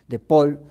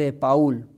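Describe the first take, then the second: First: The name is said with French pronunciation. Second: The name is said with Spanish pronunciation. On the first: "dirían los franceses" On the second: "como se pronuncia en nuestros países españoles"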